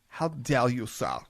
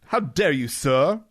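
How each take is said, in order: First: It is said with a German accent. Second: It is said in a plain accent.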